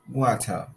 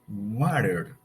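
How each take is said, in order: First: The final R is silent. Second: The final R is pronounced. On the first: "but in British English sounds water. The R is not pronounced" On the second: "In American English, that word sounds water"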